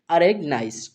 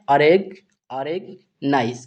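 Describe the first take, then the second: First: Said in the usual way. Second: अरेगनाइज slowly, split as अरेग, then नाइज; teacher's slow two-part अरेगनाइज; word broken into parts. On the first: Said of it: "क्या पढ़ेंगे". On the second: Shown as a demonstration. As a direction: sound out अरेगनाइज piece by piece. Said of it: "इस word को हम क्या पढ़ते हैं".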